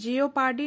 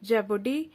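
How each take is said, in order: First: The word begins with 'jee-oh'. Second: The word begins with 'jeh'. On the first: The speaker calls it wrong. "इसे हम जियोपार्डी नहीं पढ़ते" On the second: The speaker calls it right. "इसका pronunciation सही है जेपर्डी"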